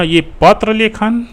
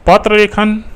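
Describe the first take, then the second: First: पत्र लेखन spelled out slowly with पत्र pressed; slow down and lean on पत्र; slow stress on पत्र. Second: Said in the usual way. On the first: Shown as a demonstration. (पत्र पर ज़ोर देकर धीरे बोलना) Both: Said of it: "एक हिसाब से देखिए ना".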